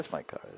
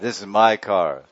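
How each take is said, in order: First: It is said offhandedly, without attachment. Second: It is said with proud satisfaction.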